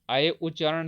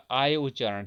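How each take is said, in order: First: अय with a short a gliding into y; short-vowel pronunciation. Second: आय with a long open aa before y; long-vowel pronunciation. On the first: Teacher shows which sound signals ayadi sandhi, short-vowel pronunciation. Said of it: "कौन सा उच्चारण?". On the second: Teacher gives students the alternative sandhi sound, long-vowel pronunciation. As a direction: say आय as aay, drawing out the first vowel. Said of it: "या आय उच्चारण है". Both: Shown as a demonstration.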